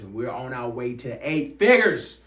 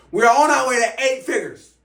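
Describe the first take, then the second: First: Said in the usual way. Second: Much higher and louder, a rallying roar; hype shout. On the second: Real, not acted. Coach firing up viewers about eight figures, rallying shout. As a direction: belt it out like firing up a crowd.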